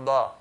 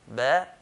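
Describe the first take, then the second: First: The letter is said heavy with a full mouth. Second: The letter is said lightly with an empty mouth. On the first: The speaker calls it wrong. "making just like the huruf al-isti'la, the heavy letters" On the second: The speaker calls it right. "pronounced lightly with empty mouth"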